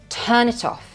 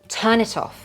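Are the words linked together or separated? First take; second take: linked; linked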